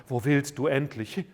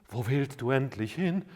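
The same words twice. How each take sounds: The two takes are said the same way.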